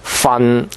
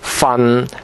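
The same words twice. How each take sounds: No difference in how they are said.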